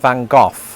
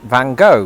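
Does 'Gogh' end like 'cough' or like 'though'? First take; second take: cough; though. First: Gogh ends with a short vowel and f-like sound. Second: Gogh ends with a long open 'oh' vowel. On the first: This is the British way of saying it. "I pronounced it Vincent van Gogh, presumably because somebody saw the word cough" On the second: This is the American way of saying it. "Americans pronounce it Van Gogh, because again, presumably somebody saw the word though"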